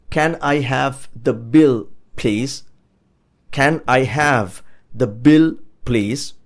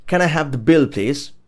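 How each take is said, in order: First: "Can I have the bill, please" word by word, with pauses; slow model. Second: Said in the usual way. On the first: Shown as a demonstration. Teacher modelling asking for the bill after eating, slow and spaced out. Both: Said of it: "you could say".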